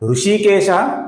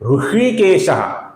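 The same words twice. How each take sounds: First: The first sh sound is palatal, tongue forward. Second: The first sh sound is retroflex, tongue curled back. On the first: The speaker calls it wrong. "ये गलत है" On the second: The speaker calls it right. "ये सही है"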